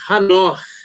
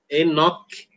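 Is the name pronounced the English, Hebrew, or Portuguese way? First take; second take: Hebrew; English. First: The name is said in a Hebrew way. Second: The name is said in an English way. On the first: The speaker calls it right. "o certo é" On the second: The speaker calls it wrong. "Em inglês é"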